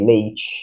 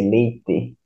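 First: It is said with a northern Brazilian accent. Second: Southern accent, with the last letter stressed.

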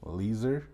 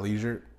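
First: The name sounds like 'leaser'. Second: The name sounds like 'leisure'. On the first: The speaker calls it right. "Said it correctly" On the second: The speaker calls it wrong. "It's not leisure"

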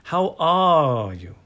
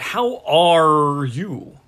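First: It is softer, without the harsh R. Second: It has a strong American R sound.

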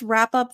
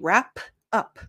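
First: The P has barely any puff of air. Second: The P has a strong puff of air. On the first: "it's less aspirated. You don't hear the pff" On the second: "if we're doing it individually"

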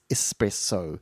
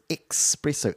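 First: It has no k sound before the s. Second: It has a k sound before the s. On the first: The speaker calls it right. "rather than the E-S, espresso" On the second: The speaker calls it wrong. "most people thought it was espresso, E-X-P"

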